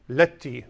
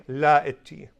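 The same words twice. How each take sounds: First: Letti, la merged into one word; Letti, one quick word; correct contracted form. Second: La itti, both words said separately; La itti unelided; wrong long form. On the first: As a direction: run it together as Letti. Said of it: "You say, after me, everyone say". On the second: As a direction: say La itti fully with a break. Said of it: "You do not say". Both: Shown as a demonstration.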